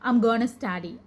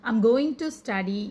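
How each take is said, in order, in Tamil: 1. 'Going to' 'gonna' என்று சுருக்கப்படுகிறது. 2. 'Going to' முழுமையாகச் சொல்லப்படுகிறது. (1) "கானா இல்லை கோனா எப்படி வேணாலும் சொல்லலாம்" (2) "இந்த மாதிரி கோயிங் டுன்னு சொல்கிறதுக்கு"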